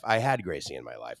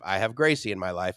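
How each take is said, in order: First: Had said lower and softer as a quiet correction; correcting to had. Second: Said in the usual way. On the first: Shown as a demonstration. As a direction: drop the voice, stress "had".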